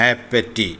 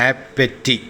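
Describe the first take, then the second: Both takes have the same delivery.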